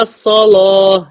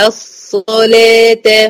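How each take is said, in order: First: "الصلاة" with a dark "loh" ending; wrongly heavy laam. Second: "الصلاة" drawn out with a thin "leh"; light laam. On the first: Teacher shows what to avoid, "الصلاة" with heavy laam. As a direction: darken the laam in "الصلاة" like the saad. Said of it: "محدش يقول لي الصلاة". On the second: Teacher models the word, "الصلاة" with light laam. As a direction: slowly chant "الصلاة" with heavy saad, thin laam. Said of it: "لأن اللام مرققة". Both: Shown as a demonstration.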